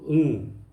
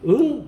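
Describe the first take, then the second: First: The pitch falls at the end. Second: The pitch rises at the end. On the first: It answers yes to a question. "밥 먹었니? 이러면 응" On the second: It asks what was said. "응이면 묻는 거잖아요"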